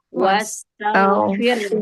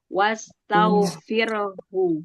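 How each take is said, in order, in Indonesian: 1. Kata ini berhenti begitu saja tanpa suku kata 'hu'. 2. Kata ini diakhiri dengan suku kata 'hu' yang terdengar jelas.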